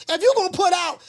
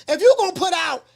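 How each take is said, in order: Both takes have the same delivery.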